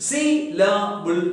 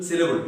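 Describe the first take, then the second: First: "Syllable" slowly broken into three beats; split into syllables. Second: Said in the usual way. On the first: Shown as a demonstration. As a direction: sound out "Syllable" one part at a time. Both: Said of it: "three syllables".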